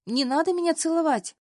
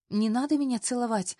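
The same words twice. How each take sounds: First: «надо» hit much higher and louder, falling; panicked high shout of «надо»; loud protest. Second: Said in the usual way. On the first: A narrator's reading. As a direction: cry out «Не надо меня целовать!» in alarm.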